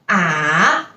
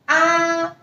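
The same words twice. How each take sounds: First: The pitch dips low, then rises again. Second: The pitch stays high and level. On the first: "it's like a V, so from up, down, and then up again" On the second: "the symbol is very flat, so the pronunciation is also flat"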